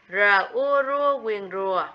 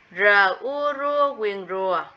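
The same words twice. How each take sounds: First: Đánh vần "R ua rua quyền rùa" từng phần rõ ràng; đọc "R", "ua", "rua", rồi "quyền rùa" như mẫu cho trẻ; spelling out rùa. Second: Đánh vần "R ua rua quyền rùa" chậm rõ từng phần; tách âm "R", "ua", "rua", rồi ghép dấu huyền thành "rùa"; spelling out rùa. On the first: (đánh vần mẫu "R ua rua quyền rùa") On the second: (đánh vần chậm rõ "R ua rua quyền rùa") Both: Shown as a demonstration. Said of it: "Phân tích cho cô tiếng rùa".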